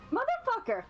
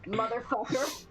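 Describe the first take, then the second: First: It is said in a put-on character voice. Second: It is said in the speaker's normal voice.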